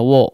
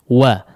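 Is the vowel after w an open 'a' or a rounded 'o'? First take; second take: rounded o; open a. First: The vowel is a rounded 'o' with pushed-out lips. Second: The vowel is an open 'a' with unrounded lips. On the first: The speaker calls it wrong. "jangan di wo bunyinya" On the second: The speaker calls it right. "Wa fathah disempurnakan pengucapan fathahnya"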